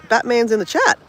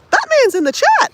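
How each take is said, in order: First: Said in the usual way. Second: Much higher and much louder, thrilled; Batman's in the chat squealed with glee; delighted squeal. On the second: Real, not acted. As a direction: announce it like big news. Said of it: "repeats excitedly".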